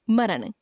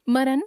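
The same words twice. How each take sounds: First: Said in the usual way. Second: मरण ending on dental n; tongue on the teeth to end मरण; mispronounced nasal. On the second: Shown as a demonstration. Teacher showing a common error, मरण with dental n. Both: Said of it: "नासिक्य व्यंजन संबंधी अशुद्धियां".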